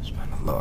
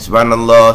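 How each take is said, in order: First: The word is said softly but audibly. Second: The word is said loudly. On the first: "Bukan kuat gitu. Maknanya kena keluar suara" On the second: "Oh ni saya ni kuat"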